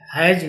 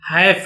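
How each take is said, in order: First: The word ends with a 'z' sound. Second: The word ends with an 'sh' sound. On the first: The speaker calls it wrong. "हैज नहीं होता" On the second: The speaker calls it right. "हैश होता है"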